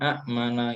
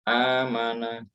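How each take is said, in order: First: A glottal stop follows the short first vowel. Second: The first vowel is long with no glottal stop. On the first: This is the original underlying form. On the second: This is how it is actually read. "dibaca panjang digabung"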